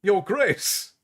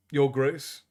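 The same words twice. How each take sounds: First: Higher, rising disbelief on Your Grace; Your Grace repeated as a stunned question; shocked echo of a new title; startled echo. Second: Said in the usual way. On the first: A narrator's reading. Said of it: "Laurie said".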